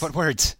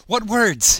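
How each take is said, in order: First: Said in the usual way. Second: Loud and high. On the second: Real, not acted. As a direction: repeat it louder and higher. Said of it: "Never mind".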